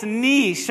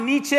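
First: "niche" said as "neesh", one syllable; correct niche. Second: "Nietzsche" said as "NEE-chee", two syllables; wrong niche. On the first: Pastor teaching the congregation, correct niche. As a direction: say "niche" to rhyme with leash. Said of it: "it's niche". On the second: Pastor showing the wrong way, mispronounced niche. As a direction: say "Nietzsche" with a ch sound. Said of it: "It's not Nietzsche". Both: Shown as a demonstration.

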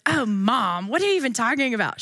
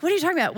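First: Lightly put-on teen daughter, a bit quicker; hint of an exasperated teen; mock daughter voice. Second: Higher, hammed-up teen daughter; mock daughter voice. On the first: Mom imitating her daughter's reply, mildly put-on. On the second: Mom redoing her daughter's reply, higher and hammed-up. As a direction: squeak it like a baffled teenager. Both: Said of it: "She does not talk like that".

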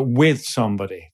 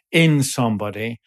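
First: "with" stressed, falling away on "somebody". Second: "in" stressed, set apart before "somebody". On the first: Defining sympathy against empathy, stress on "with". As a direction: lean on the word "with". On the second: Defining empathy against sympathy, stress on "in". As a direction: lean on the word "in". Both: Shown as a demonstration. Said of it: "as opposed to sympathy".

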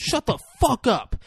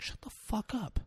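First: High, exasperated mock snap; mock exasperated outburst. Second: Very soft, high, urgent hushing; mock hushed anger. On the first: Pratt scolds her for drawing the dinosaur, mock exasperation. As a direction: burst out with it, voice jumping up high. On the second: Pratt silences her screaming for the kids, hushed mock anger. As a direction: hush her urgently under your breath.

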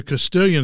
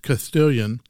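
First: Said in the usual way. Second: Castilian said slowly as Casthilian, the c lisped like th. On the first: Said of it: "pronounced Castilian". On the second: Shown as a demonstration. Teaching listeners the Spain pronunciation, slow and lisped. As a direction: lisp the c in Castilian the Spain way, unhurried. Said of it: "say everything with a lisp".

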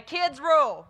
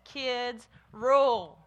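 First: Put-on loud, punchy "Kids rule" cheer; rallying cheer. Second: Slow, drawn-out RULE, hit loud; emphatic declaration. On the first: Shown as a demonstration. Leading kids to tell the grown-ups, loud rallying cheer. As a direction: call it out big for the children to echo. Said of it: "turn around, look at the grown-ups, and say". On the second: Retold or imitated. Telling children what Jesus says, slow emphatic declaration. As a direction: land "Kids rule" slowly, stretching a loud "rule". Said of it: "Jesus says".

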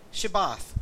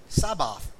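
First: "Shabbath" opening on a clear sh sound; "Shabbath" pronounced sh, as in ship; correct password pronunciation. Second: "Sabbath" opening on a plain s instead of sh; "Sabbath" pronounced s, as in sun; mispronounced password. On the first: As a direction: say "Shabbath" with a hushed sh at the start. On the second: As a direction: say "Sabbath" with a hissed s at the start. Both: Shown as a demonstration. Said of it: "he would not be able to pronounce it right".

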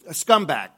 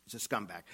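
First: A loud scornful jab at scumbag; loud insult. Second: Said in the usual way. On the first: Acted. Angry at the cheating husband, loud scorn. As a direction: spit out scumbag loud and high.

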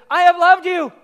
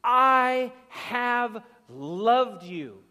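First: Much higher and far louder; ringing declaration. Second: Very slow, every word weighed; emphatic declaration. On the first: Preacher voicing God to the church, loud ringing proclamation. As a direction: proclaim it with full force. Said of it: "God opens with". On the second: Preacher voicing God's love to the church, very slow and emphatic. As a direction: lay each word down slowly and surely. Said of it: "the most emphatic and unmistakable of language". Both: Retold or imitated.

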